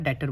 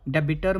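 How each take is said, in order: First: The b sound is silent in the middle. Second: The b sound is pronounced in the middle. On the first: The speaker calls it right. "बी silent है यहाँ पे" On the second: The speaker calls it wrong. "डेबिटर मत बोलना"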